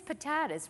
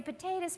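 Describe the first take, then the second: First: "potatoes" with a broad A, po-TAH-toes; broad-A pronunciation. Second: "Potatoes" with a long A, po-TAY-toes; long-A pronunciation. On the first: Preacher voicing a doubter's quibble, "potatoes" said po-TAH-toes. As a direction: say "potatoes" with middle vowel as in "father". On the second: Preacher voicing a doubter's quibble, "Potatoes" said po-TAY-toes. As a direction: say "Potatoes" with middle vowel as in "day". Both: Shown as a demonstration. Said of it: "Now you might say, "Potatoes, potatoes".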